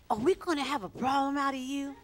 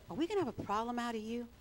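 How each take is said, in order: First: Higher-pitched, pointed interrogation; interrogating. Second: Quick, understated interrogator's question; interrogating. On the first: Pastors confronting a newcomer, stern mock interrogation. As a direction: repeat the challenge harder, imitating tough questioners. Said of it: "That's how they talked to him". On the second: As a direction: rattle off the challenge as a mild warning. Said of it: "It was more like an interrogation". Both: Retold or imitated.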